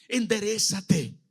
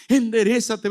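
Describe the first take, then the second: First: Said in the usual way. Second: Higher, louder urging; firm loud command. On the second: Acted. God to Saulo, a raised urgent command. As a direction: push it out as an urgent call.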